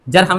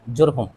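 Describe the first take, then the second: First: Both vowels in the word are 'a' sounds. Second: Both vowels in the word are 'u' sounds. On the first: The speaker calls it wrong. "जरहम नहीं है" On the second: The speaker calls it right. "दोनों पर पेश है"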